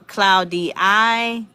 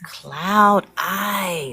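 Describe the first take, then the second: First: The first part sounds like the word cloudy. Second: The first part sounds like cloud, then eye. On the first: The speaker calls it wrong. "Maybe I'm saying it wrong" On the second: The speaker calls it right. "it's cloud eye though"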